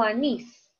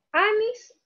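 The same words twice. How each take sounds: First: "anís" with the weight on final NÍS; stress on last syllable. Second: "Anís" misstressed as A-nis, weight on A; stress on first syllable. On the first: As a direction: say "anís" as a-NÍS, landing on the ending. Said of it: "en la última sílaba está la mayor fuerza". ("anís" con la fuerza al final: a-NÍS) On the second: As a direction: say "Anís" wrongly, punching the opening A. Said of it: "Yo digo canción o canción". ("Anís" con la fuerza en A: Á-nis) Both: Shown as a demonstration.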